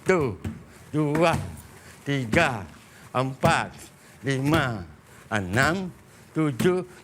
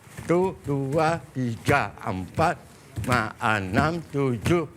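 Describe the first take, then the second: First: The counting is said slowly. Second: The counting is said fast.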